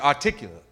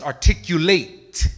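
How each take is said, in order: First: The word is slurred with sounds dropped. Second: The word is enunciated fully and clearly. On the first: The speaker calls it wrong. "you don't enunciate. If the word is articulate, you don't say articulate" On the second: The speaker calls it right. "It's articulate"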